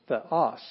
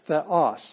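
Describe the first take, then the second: First: "theos" with the accented syllable hit hardest; correct stress demo. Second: "Theos" with the wrong syllable hit, a touch louder; wrong stress demo. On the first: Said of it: "that's the syllable you're gonna hit the hardest". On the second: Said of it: "not theos". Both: Shown as a demonstration.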